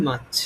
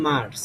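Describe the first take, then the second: First: মার্চ without the r, "maach"; British pronunciation. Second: মার্চ with the r sounded, "mars"; familiar Bengali pronunciation. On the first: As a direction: drop the r in মার্চ, long aa. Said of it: "এটা উচ্চারণ হবে". (মার্চ British ঢঙে, "র" ছাড়া "মাচ") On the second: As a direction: sound the r in মার্চ, soft s ending. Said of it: "আমরা এতদিন হচ্ছে উচ্চারণ করতাম". (মার্চ বাংলা ঢঙে, "র" সহ) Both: Shown as a demonstration.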